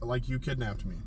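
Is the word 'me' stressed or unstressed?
unstressed. The line is said flat, with no word stressed. "I'm just gonna say the line flat"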